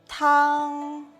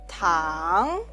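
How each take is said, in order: First: The pitch stays high and level. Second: The pitch rises from mid to high. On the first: It means soup. "Tongue can mean the soup" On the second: It means candy. "Tongue can mean candy"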